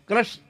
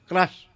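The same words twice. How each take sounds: First: The name is clipped to a short 'krash'. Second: The name is clipped to a short 'krash'.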